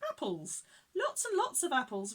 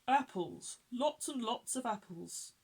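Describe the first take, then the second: First: It is said in the little bear's higher voice. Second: It is said in Grandpa Bear's deeper voice.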